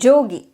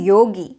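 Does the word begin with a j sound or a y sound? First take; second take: j sound; y sound. First: The word begins with a j sound. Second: The word begins with a y sound. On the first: This is the northern way of saying it. "in North, they may say it as jogi" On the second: This is the southern way of saying it. "In South, we say yogi"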